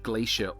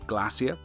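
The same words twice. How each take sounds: First: It is said with an American accent. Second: It is said with a British accent.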